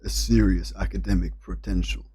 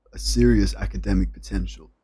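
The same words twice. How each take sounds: First: American accent try. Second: Second go at a posh American accent, serious stressed; American accent retry. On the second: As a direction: repeat the line in an American accent, pushing serious. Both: Shown as a demonstration. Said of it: "how to say this in an American accent".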